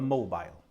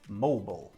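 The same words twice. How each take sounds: First: It is said with a British pronunciation. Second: It is said with an American pronunciation. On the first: "us Brits call a mobile phone or just a mobile" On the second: "mobile in America is pronounced differently. They say mobile"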